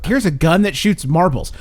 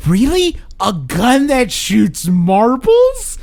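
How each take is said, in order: First: Said in the usual way. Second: High, slow, disbelieving question; mock amazed, drawn out; incredulous. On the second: Quoting Paul Blart's incredulous reply.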